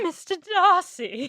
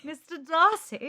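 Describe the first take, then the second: First: Higher, slow British "Mister Darcy"; hammed-up British accent on "Mister Darcy"; mock British accent. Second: Higher, slow British "Mister Darcy" falling; slowly, in a put-on British accent; hammed-up British "Mister Darcy" falling at the end; mock British accent. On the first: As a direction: drawl it out in a posh British put-on. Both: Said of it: "you just went, "Mister Darcy".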